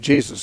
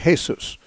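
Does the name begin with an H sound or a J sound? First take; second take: J sound; H sound. First: The name begins with a J sound. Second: The name begins with an H sound. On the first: "If you're an English-speaking person, then you'd say Jesus" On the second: "in Spanish they pronounce the J as an H"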